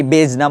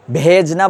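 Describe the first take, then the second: First: বেজনা in two syllables, h folded into the b; বেজনা as one joined bej-na; he merged in. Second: ভেজনা with its he picked out, first syllable drawn out; he sounded separately. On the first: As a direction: say বেজনা without a separate he. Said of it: "নাকি". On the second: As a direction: stretch the breathy start of ভেজনা. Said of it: "হেটারে কি আমি স্বতন্ত্রভাবে". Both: Shown as a demonstration.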